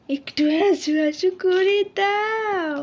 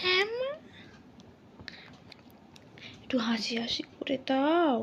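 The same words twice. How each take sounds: First: Said in the usual way. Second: Fast soft whisper; whispered coaxing. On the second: Real, not acted. Mother whispering to coax her baby into smiling. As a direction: coax a smile in a hushed, quick whisper.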